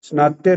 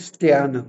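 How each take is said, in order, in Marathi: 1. शब्द 'sn' आवाजाने सुरू होतो. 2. शब्द 'st' आवाजाने सुरू होतो. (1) "स्नात्य नाही" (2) "स्त्यान आहे"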